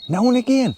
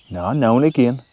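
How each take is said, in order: First: A high, disbelieving echo of his words; mock incredulous. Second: "now and again" said firmly, falling at the end; insisting. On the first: Wife doubting his beer claim, mock incredulous squeak. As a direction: mimic her raising an eyebrow at it. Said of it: "Michelle's probably going". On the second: Acted. Answering his wife's doubt, firm "now and again". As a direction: reassure her it really is only "now and again".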